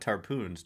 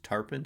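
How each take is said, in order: First: The second syllable has a long 'oo' vowel. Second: The second syllable has a short, reduced vowel. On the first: The speaker calls it wrong. "That's not Tarpoons" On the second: The speaker calls it right.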